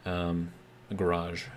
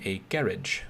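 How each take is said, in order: First: Said in the usual way. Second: "garage" said GARR-idge, stress on the first syllable, ending in -idge; British garage. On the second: Shown as a demonstration. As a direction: say "garage" the British way, rhyming with carriage. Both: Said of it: "as they say in Great Britain".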